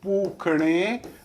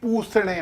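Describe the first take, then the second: First: The middle consonant sounds like 'kh'. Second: The middle consonant sounds like 'sh'. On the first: "Sanskrit में षटकोण वाले सा को खा बोला जाता है" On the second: "कुछ लोग कहते हैं कि पूषणे नमः"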